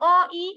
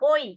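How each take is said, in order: First: The two vowels are said as separate syllables. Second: The two vowels are joined in one syllable. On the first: The speaker calls it wrong. "এখন আপনি কি ওই উচ্চারণ করার সময় বলবেন অ ই, না" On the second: The speaker calls it right. "ওই একাক্ষর হচ্ছে"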